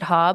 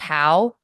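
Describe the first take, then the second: First: The vowel is a plain 'ah' sound. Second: The vowel glides like 'ow' in cow. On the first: The speaker calls it wrong. "It looks like you would pronounce it Ha" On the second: The speaker calls it right. "but it's actually pronounced How"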